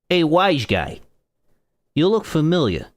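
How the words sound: It is read in an exaggerated Italian accent.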